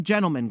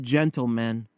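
First: Said in the usual way. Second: Gentle men said slowly as two words; slow gentle men, gentle stressed; two separate words. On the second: Shown as a demonstration. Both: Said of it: "Not gentlemen, Gramp, but gentle men".

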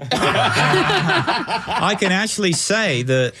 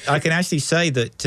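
First: Drawn-out laughing line. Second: Said in the usual way. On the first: Real, not acted. Guest laughing back at the host's joke, drawn out. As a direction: stretch it slowly through laughter.

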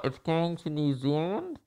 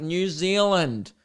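First: Soft, muffled repeat through a mask; indistinct, as if through thick cloth. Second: Drawn-out, higher, unmuffled NEW ZEALAND; slow and clear. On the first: Customer repeating himself to the clerk, muffled by mask. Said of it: "makes it twice as muffled". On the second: Customer with mask moved aside, slow and clear. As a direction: spell out New Zealand slowly for someone who misheard. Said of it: "I had to move a mask". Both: Retold or imitated.

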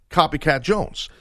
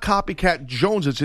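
First: "Jones" said as a single syllable, no plural ending; correct form. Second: "Joneses" with the extra plural syllable, as the co-host said it; wrong plural. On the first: Shown as a demonstration. Host correcting the co-host's slang, plain single-syllable "Jones". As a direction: say "copycat Jones" cleanly, one syllable on "Jones". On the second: Retold or imitated. Host quoting the co-host's wrong slang, "Joneses" with plural ending. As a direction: repeat "copycat Joneses" as the mistaken plural, ending on "-ez". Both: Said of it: "It'd be copycat Jones".

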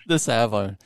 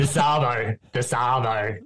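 First: American copying Australian "arvo"; learner's attempt at Australian accent; imitated Australian accent. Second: Australian "arvo", repeated for a learner; Australian accent, teaching the word. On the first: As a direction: echo "arvo" in a tentative Aussie accent. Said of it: "I'll see if I can do it". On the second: Shown as a demonstration. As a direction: model "arvo" in an everyday Aussie accent. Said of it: "in your, your accent".

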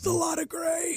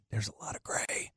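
First: Very high, soft squeal; small high-pitched cry of mock alarm; squeaky dismay. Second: Hushed whisper, barely voiced; whispered discovery. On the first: Host repeating his gray-beard discovery, high squeaky dismay. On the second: Host telling of gray in his beard, whispered. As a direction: whisper it like a grim secret.

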